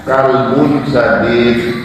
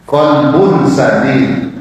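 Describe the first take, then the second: First: Slow "kalbun", front k and a vowel; kalbun with kaf. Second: Slow "Kolbun", back k and o vowel; kolbun with qaf. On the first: Teacher showing the misreading, slow front-k "kalbun". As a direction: stretch "kalbun sadid" with a light first k. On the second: Teacher showing correct reading, slow back-k "Kolbun". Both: Shown as a demonstration. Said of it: "Tapi kalau dibacanya".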